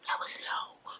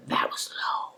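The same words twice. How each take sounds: First: Barely breathed, much softer; fainter whisper. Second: Gasp, then whisper it, shocked; a scandalised breath. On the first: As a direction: repeat it almost silently. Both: Real, not acted.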